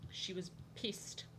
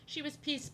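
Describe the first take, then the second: First: Slow, hushed whisper; whispered aside. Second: Voiced and pitched high; high-pitched repeat. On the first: Telling viewers about the angry group chat girl, whispered. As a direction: whisper it slowly like gossip. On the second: Telling viewers about the angry group chat girl, high-pitched. Same remark repeated out loud. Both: Real, not acted.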